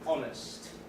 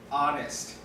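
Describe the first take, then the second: First: It is said with a British accent. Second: It is said with an American accent. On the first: "in the British way" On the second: "in American, we pronounce it"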